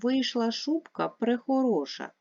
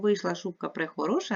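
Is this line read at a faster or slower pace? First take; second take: slower; faster. First: It is read at a slower, ordinary pace. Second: It is read at a faster pace.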